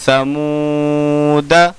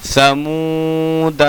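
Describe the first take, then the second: First: समूदा with long मू and short final द; slow समूदा, final alif silent; correct recitation. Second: समूदा drawn out with a long final आ; slow समूदा, alif sounded at the end; written-form reading. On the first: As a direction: stretch मू, cut the end of समूदा short. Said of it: "कैसे पढ़ेंगे?". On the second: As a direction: hold both मू and the final दा of समूदा. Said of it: "अलिफ नहीं पढ़ा जाएगा". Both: Shown as a demonstration.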